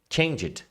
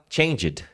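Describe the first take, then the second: Both takes have the same delivery.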